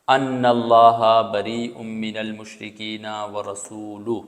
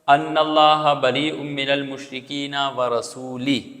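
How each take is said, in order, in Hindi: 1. आख़िरी शब्द का अंत 'u' स्वर से होता है। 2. आख़िरी शब्द का अंत 'i' स्वर से होता है। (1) "कुरान मजीद की असल आयत यह है" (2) "रसूल के लाम पर पेश के बजाय उसने ज़ेर पढ़ दिया"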